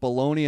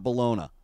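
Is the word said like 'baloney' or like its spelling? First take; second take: baloney; spelling. First: It is said the common American way, like 'baloney'. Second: It is said closer to how it is spelled. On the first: This is the everyday American name. "why Americans call it bologna" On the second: This follows the spelling on the package. "and not bologna"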